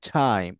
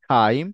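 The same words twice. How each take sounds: First: The t comes with a strong puff of air. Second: The t comes with no puff of air. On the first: The speaker calls it right. "টাইম, not টাইম" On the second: The speaker calls it wrong. "Not টাইম"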